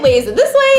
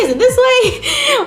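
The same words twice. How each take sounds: First: A touch puzzled, near her usual voice; mildly confused question. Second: Much higher, drawn-out puzzled ask; confused high question. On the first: Asking friends about the pose, mildly puzzled. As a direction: ask it lightly, unsure. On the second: Asking friends which way the pose goes, confused and high. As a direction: squeak the question out, lost. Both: Retold or imitated. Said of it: "confused, like".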